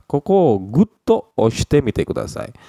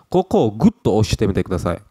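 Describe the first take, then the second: First: Koko gutto stretched slow and higher, gutto leaned on; pressing emphasis. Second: Said in the usual way. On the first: Shown as a demonstration. Teacher showing students firm pressing. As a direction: press the word gutto as if pushing hard. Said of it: "tolong tekan di sini dengan keras".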